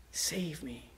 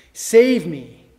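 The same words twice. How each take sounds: First: Softer, whispered echo; whispered plea. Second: Loud, pleading cry; urgent plea. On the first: Preacher echoing David's plea in a whisper. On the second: Preacher voicing David's loud plea for rescue. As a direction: beg to be saved. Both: Acted.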